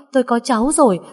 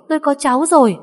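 First: Joyful shout. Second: Even bigger joyful shout. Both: A narrator's reading. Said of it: "hét lớn".

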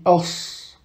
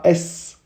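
First: The correct heavy sad with sukun. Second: S said with a light front vowel, the wrong way; a bright, light es, as the mistake to avoid; the light vowel, not the heavy one. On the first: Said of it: "on rend la lettre grave". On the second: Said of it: "on dit pas S, mais on rend la lettre grave". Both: Shown as a demonstration.

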